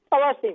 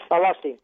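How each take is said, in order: First: Jumps much higher on the repeat; rueful repeat. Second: Said in the usual way. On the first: Real, not acted. Old trainer repeating to the interviewer how he lost the horse, high rueful exclamation. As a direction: cry out the loss again, pitched way up.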